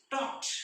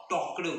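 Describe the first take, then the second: First: "talked" ending in a crisp unvoiced T; correct T ending. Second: "talked" ending in a voiced D after the K; wrong D ending. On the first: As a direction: say "talked" with -ed as T, not D. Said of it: "ईडी ऐवजी आपण ट असा उच्चार करतो". ("talked" च्या शेवटी ड नाही, ट) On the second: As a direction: demonstrate "talked" wrongly as talk-d. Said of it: "We cannot pronounce". ("talked" च्या शेवटी ट ऐवजी ड) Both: Shown as a demonstration.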